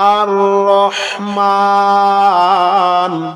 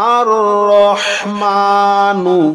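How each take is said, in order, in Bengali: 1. শব্দটি n দিয়ে শেষ হয়, স্বরবর্ণ বাদ যায়। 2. শব্দটি n-এর পরে একটি ছোট স্বরবর্ণ দিয়ে শেষ হয়।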